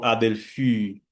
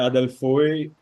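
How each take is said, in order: First: The final vowel is pronounced as a plain ee. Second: The final vowel is pronounced as a diphthong oi. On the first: This is the later pronunciation after sound changes. "isso é uma das coisas que virou som de iota" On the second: This is the academic school pronunciation. "Adelphoi é no Erasmiano, que é aquela pronúncia mais didática"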